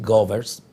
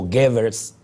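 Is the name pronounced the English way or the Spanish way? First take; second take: Spanish; English. First: The name is said with Spanish pronunciation. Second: The name is said with English pronunciation. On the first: "yo opto por decir Goebbels porque eh, estoy hablando en castellano" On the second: "pronunciado en inglés"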